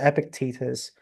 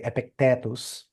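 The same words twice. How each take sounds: First: The name is pronounced the English way. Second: The name is pronounced the Latin way. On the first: "let's say it in English, uh, in English accent" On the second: "in Latin you say Epictetus"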